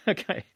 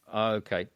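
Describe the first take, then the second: First: Amused, rising okay with a laugh; chuckling disbelief. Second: Said in the usual way. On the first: Real, not acted. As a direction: laugh it out, pitch jumping up. Amused at nobody knowing.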